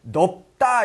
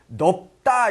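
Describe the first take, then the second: First: The cluster is pronounced with a b sound. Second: The same.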